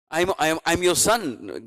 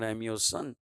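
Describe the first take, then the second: First: Slow, with weight on your; slow emphatic revelation. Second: Said in the usual way. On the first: Retold or imitated. The deity revealing to Govinda Ghosh he is his son, slow and emphatic. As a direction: let the deity land it slowly, as a revelation.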